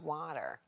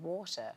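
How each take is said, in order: First: Water is said with an American-sounding accent. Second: Water is said with a British-sounding accent. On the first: "now she's back to water" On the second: "became quite British-sounding"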